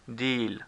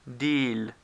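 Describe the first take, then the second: Both takes have the same delivery.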